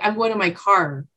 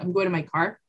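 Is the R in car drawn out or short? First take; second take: drawn out; short. First: Said Eastern style, with a longer R in car. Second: Said plainly, with a short R in car.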